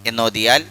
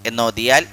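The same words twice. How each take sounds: The two takes are said the same way.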